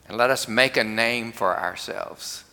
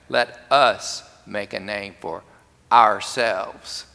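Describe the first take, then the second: First: It is read evenly, with no special emphasis. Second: The word 'ourselves' is strongly emphasized.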